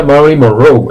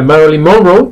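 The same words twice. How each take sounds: First: "Monroe" stressed on the last syllable, mon-ROE; final stress. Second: "Monroe" stressed on the first syllable, MON-ro; wrong stress. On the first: Shown as a demonstration. Teacher reports the US form, "Monroe" stressed at the end. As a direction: land the accent at the end of "Monroe". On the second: Retold or imitated. Teacher recalls a lifelong error, "Monroe" stressed early. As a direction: mistaken early accent on "Monroe". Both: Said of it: "el acento va al final".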